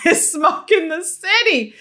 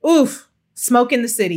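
First: Laughing. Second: Said in the usual way. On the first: Real, not acted. Repeats joke with laugh.

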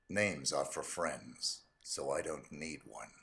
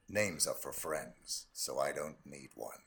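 First: Low, quiet, slow assassin voice; cold hitman calm, very low; low cool menace. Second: Low, quiet, slow assassin voice; cold killer calm, very low; low cool menace. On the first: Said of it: "say all those quotes in your voice ... Agent forty-seven". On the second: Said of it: "Agent forty-seven". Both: Acted.

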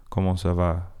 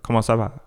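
First: Parisian French accent, "Comment ça va?" said smoothly and evenly; Northern French accent. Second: Southern French accent with a jump to it, "Comment ça va?" bouncy and louder. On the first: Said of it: "Northern French accent where it's like". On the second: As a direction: say "Comment ça va?" like someone from Marseille, lively. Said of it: "down south, they'd be like". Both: Shown as a demonstration.

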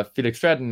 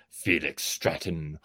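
First: Said in the usual way. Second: Felix Stratton said low and slow, deep growl. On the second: Shown as a demonstration. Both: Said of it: "I go".

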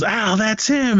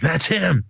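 First: Very high mock cry of recognition; retold alarm. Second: Higher-pitched, contained mock alert; retold recognition. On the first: Agent setting off the chase, mock excited cry. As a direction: imitate raising the alarm, drawn-out opening. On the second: Agent spotting the suspect in a crowd, contained alert. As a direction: act out spotting someone, not yet yelling.

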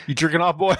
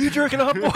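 First: A hint of a drill sergeant, pitch barely raised; mild mock drill instructor; lightly voiced drill instructor. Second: Higher, hammed-up drill sergeant bark; drill instructor yell. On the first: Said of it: "It's like". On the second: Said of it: "He's like".

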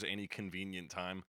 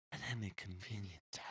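First: Said in the usual way. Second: Hushed, airy whisper of a lyric; mock-whispered song line; imitated whisper. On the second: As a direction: whisper it like an odd singer. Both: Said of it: "he whispers any convenient time".

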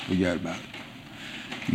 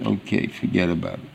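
First: Soft, slow brush-off; soft, slow forget about it; casual dismissal. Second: Said in the usual way. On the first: Retold or imitated. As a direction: wave it away gently, slowly. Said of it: "people say". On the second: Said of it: "you're sorry about it".

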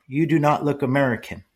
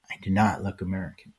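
First: Higher, measured mock voice, "do" stressed; imitating her speech. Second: Said in the usual way. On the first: Young woman telling him he looks foreign, higher mock imitation. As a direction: copy the young woman's careful phrasing. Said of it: "she was speaking just like that".

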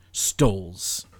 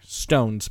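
First: Stoles read with an L, as stoles; misread word. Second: Stones said right, with an N; corrected word. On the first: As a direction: say stoles with an L where stones was meant. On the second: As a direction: fix it to Stones, clear N sound. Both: Shown as a demonstration. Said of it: "Stones, by the way, not stoles".

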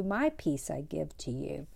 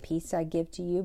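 First: "my peace I give to you" whispered and softer; whispered echo. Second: Said in the usual way. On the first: Retold or imitated. Echoing Jesus' promise of peace to listeners, whispered. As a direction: let the repeated line drop to a hushed whisper.

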